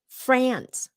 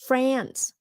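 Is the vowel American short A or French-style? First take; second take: American; American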